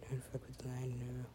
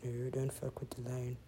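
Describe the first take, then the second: First: Breathy whispered warning; hushed whispered warning to the lion. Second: Said in the usual way. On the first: Real, not acted. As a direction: whisper it to the screen.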